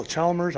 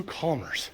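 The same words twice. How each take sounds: First: "Chalmers" with CH as in chair; unsure pronunciation. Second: "Chalmers" with a hard K start; unsure pronunciation. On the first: Second guess at the car's name, CH-sound "Chalmers". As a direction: say "Chalmers" as CHAL-merz, L sounded. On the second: Trying a car maker's name, K-sound "Chalmers". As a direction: say "Chalmers" as KAH-merz, silent L. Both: Shown as a demonstration. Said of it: "don't even know how to pronounce it".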